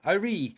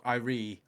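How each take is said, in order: First: Irie, said higher and louder to correct; correcting the name Irie. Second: Said in the usual way. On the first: Shown as a demonstration. Correcting co-host on a band member's name, [name] stressed.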